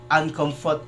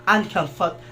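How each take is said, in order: The two takes are said the same way.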